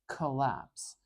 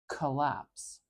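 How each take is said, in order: First: The first vowel is a short, weak schwa. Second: The first vowel is a short, weak schwa.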